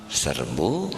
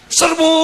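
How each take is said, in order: First: It is said weakly with low energy. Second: It is shouted loudly with high energy. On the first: The troops are left confused. "lalieur tah tentara tah" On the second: The troops are fired up to attack.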